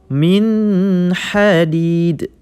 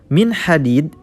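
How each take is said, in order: First: It has a pause after the n sound. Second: It is read smoothly with no pause. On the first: "terdapat jeda pada nun sukun" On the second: "dibaca dengan tanpa jeda"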